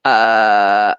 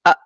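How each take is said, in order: First: "a" stretched long, letting the sound flow on; wrongly drawn out. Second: "a" short and stopped dead; cut-off sound. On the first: Teacher shows the forbidden way, "a" drawn out. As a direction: hold "a" open and slow instead of stopping it. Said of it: "bukan a, nggak bisa". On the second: Teacher shows how it must be, "a" abruptly held. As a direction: chop "a" off with the breath held shut. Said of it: "Dia harus a". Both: Shown as a demonstration.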